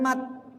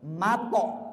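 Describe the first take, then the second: First: The t is cut off with no bounce. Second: The t is released with an echoing bounce. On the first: The speaker calls it wrong. "Bukan mat" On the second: The speaker calls it right. "Karena qalqala"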